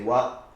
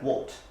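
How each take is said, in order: First: The final T is not pronounced. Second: The final T is clearly pronounced. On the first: "With an American accent, normally the T at the end is not pronounced" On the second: "it's pronounced always with the same sound, T"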